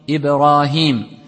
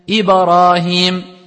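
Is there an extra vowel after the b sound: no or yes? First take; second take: no; yes. First: The b has a light bounce with no vowel. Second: The b bounce is exaggerated into an a vowel. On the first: The speaker calls it right. "Donc, c'est Ibrahim" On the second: The speaker calls it wrong. "ils vont exagérer, ils vont dire Ibrahim. Comme si t'as mis une fatha"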